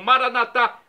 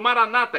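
First: The stress falls on the final syllable. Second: The stress falls on the second-to-last syllable. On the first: "como dizemos nós católicos" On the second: This is the Protestant way of saying it. "como dizem nossos irmãos separados"

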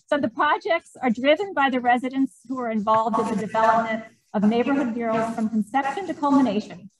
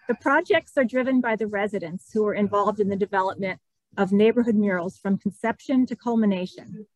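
First: It is said in a projected teacher voice. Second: It is said in her ordinary speaking voice.

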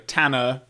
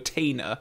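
First: The first vowel is a flat northern A sound. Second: The first vowel is not a flat A sound. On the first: "Tanner with the A sound" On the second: "over Tanner"

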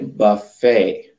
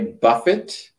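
First: The final T sound is silent. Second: The final T sound is pronounced. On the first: The speaker calls it right. "we say buffet. So the T is silent" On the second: The speaker calls it wrong. "We don't say buffet"

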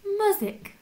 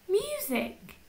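First: The first vowel sounds like the u in up. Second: The first vowel sounds like the word you. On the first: The speaker calls it wrong. "Should we try it with up?" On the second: The speaker calls it right. "Let's try it with you"

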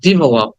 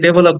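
First: The first syllable has a short 'ih' vowel. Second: The first syllable has an open 'eh' vowel. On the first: The speaker calls it right. "কিন্তু উচ্চারণটা হবে I" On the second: The speaker calls it wrong. "আমরা এটাকে ডেভেলপ বলি, DE আছে"

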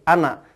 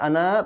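First: The final vowel is kept short. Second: The final vowel is drawn out long. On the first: The speaker calls it right. "tapi ana, tidak berfungsi" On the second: The speaker calls it wrong. "tidak dibaca ana"

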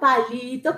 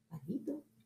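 First: The word is shouted loudly. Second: The word is said at normal volume. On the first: Many rabbits shout it. "Muchos conejos gritan palito" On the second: One rabbit says it. "Un conejo dice palito"

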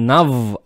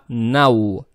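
First: The w sound is pronounced hard. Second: The w sound is pronounced soft. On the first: The speaker calls it wrong. "Не нав" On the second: The speaker calls it right. "произносим правильно, то есть мягко"

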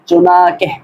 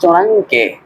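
First: No n sound is heard before the k. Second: A nasal ng sound is heard before the k. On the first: The speaker calls it right. "বরং উচ্চারণ হলো এরকম চুনাকে, অর্থাৎ দ্বিতীয় নুনটা উচ্চারণ হবে না" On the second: The speaker calls it wrong. "অনেকে বলে থাকি চোনাংকে, এরকম উচ্চারণ হবে না"

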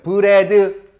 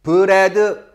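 No difference in how they are said.

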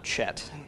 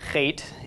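First: It begins with a ch as in church. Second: It begins with a rough sound in the throat. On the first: The speaker calls it wrong. "and not Chet" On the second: The speaker calls it right. "this is Chet"

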